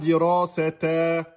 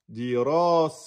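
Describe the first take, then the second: First: The word ends with a spoken 'te' syllable. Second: The word stops without a final 'te' syllable. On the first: The speaker calls it wrong. "vous dites pas dirasete" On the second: The speaker calls it right. "vous enlevez tout, vous mettez un soukoun"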